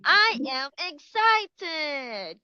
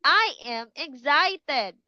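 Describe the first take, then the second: First: Slow, raised, eager I am excited. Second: Bright, raised I am excited. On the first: Teacher showing kids an excited face and voice, higher. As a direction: sound thrilled for the kids. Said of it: "Can you do like this one". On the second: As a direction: show them excitement. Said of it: "You will say". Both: Shown as a demonstration.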